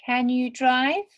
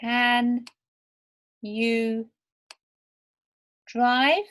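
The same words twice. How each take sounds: First: Can you drive with the voice going up on drive; rising question. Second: Can you drive said word by word, rising on drive; slow questioning rise. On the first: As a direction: ask it naturally, lifting drive. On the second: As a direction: spell out the question, lifting drive. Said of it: "Question mark". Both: Shown as a demonstration.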